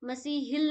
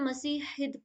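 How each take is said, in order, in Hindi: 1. इस शब्द का अंत एक साफ़ L की आवाज़ से होता है। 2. इस शब्द का अंत D की आवाज़ से होता है, L नहीं। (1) "मसीहिल नहीं पढ़ेंगे" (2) "मसीहिद पढ़ेंगे"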